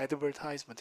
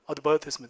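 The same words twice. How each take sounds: First: It is said in an American accent. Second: It is said in a British accent. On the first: "미국 가면 그냥 advertisement 이렇게 씁니다" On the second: "광고 영국 가면 뭐라고요?"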